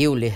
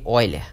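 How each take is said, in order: First: It is said as spelled, starting with 'eu'. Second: It is said starting with an 'oi' sound. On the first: This is how the name is written. "Que se escreve" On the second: This is how the name is read aloud. "Se lê"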